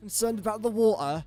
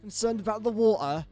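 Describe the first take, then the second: First: It is said in a British accent. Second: It is said in a British accent.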